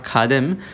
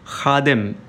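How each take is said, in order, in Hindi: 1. "kh" एक सादी aspirated k आवाज़ है। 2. "kh" गले से निकलने वाली खुरदुरी fricative है। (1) "नॉट" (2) "ख का उच्चारण है वो हलक से हो"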